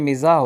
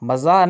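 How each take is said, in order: First: The first vowel sounds like 'i'. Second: The first vowel sounds like 'a'. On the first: The speaker calls it right. "बल्कि मिज़ाह होता है" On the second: The speaker calls it wrong. "मज़ाह नहीं होता"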